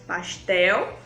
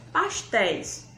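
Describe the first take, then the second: First: "Pastel" with its final L said like "u", rising; singular form. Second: "pastéis" ending clearly in "éis", falling; plural form. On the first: Teacher contrasts singular "Pastel" for children. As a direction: set "Pastel" against its plural. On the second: Teacher contrasts plural "pastéis" for children. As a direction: answer with "pastéis". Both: Shown as a demonstration. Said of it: "singular versus plural contrast".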